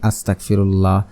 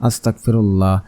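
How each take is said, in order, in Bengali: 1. শব্দটি অসতর্কভাবে উচ্চারিত হয়েছে, শব্দগুলো অস্পষ্ট। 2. শব্দটি অসতর্কভাবে উচ্চারিত হয়েছে, শব্দগুলো অস্পষ্ট।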